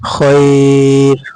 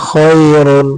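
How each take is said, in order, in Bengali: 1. শব্দটি হঠাৎ একটি ব্যঞ্জনধ্বনিতে শেষ হয়। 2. শব্দটি পূর্ণ স্বরধ্বনি দিয়ে শেষ হয়।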